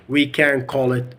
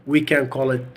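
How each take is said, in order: No difference in how they are said.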